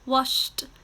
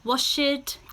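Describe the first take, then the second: First: The word is said as one syllable. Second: The word is said as two syllables. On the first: The speaker calls it right. "these are now still one syllable" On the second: The speaker calls it wrong. "We do not say"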